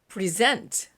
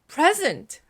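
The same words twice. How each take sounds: First: The stress is on the second syllable. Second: The stress is on the first syllable. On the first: It is a verb meaning to give or submit. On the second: It is a noun meaning a gift.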